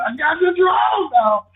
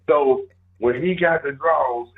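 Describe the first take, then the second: First: High, loud gleeful shout; shouted, much higher sitcom gloat; Tommy's gloating shout. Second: Said in the usual way. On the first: Retold or imitated. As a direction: crow it out like a sitcom character rubbing it in. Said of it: "You remember Tommy from Mountain".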